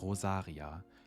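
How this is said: The name is said with a German accent.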